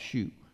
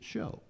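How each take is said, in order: First: The word ends in an oo vowel, like too. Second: The word ends in an oh vowel, like go. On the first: "some folks that call that shoot" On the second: "the pronunciation of that is show"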